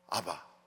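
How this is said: The middle consonant is a soft b sound. "미국 사람들은 아빠가 발음이 안 돼요"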